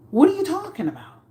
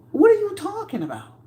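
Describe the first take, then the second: First: Quick, much higher question; higher and fast, baffled; incredulous. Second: Much higher, drawn-up disbelief; exasperated, high-pitched question; very high, stunned; incredulous. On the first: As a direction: fire it off in disbelief. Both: Real, not acted.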